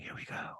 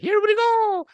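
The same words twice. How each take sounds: First: It is said softly, almost whispered. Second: It is said in a full, energetic voice.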